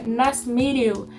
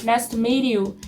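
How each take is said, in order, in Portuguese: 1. O T em meet é suave, quase silencioso. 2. O T em meet é suave, quase silencioso.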